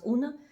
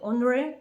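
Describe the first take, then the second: First: It is said in a shortened, spoken form. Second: It is said in the full, written form. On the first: This is how people say it in everyday speech. "you pronounce una" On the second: This is how the word is written. "They're written one way"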